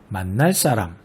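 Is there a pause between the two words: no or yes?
no. Said smoothly with no break between words. "모두 된소리로 발음하게 되죠"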